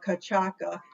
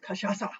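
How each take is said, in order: First: It is read the way English spelling suggests. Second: It is said the way Portuguese speakers say it. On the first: The speaker calls it wrong. "Don't be fooled and say cachaca or cachaca, even though it would look like that to us" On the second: The speaker calls it right. "It's cachaça"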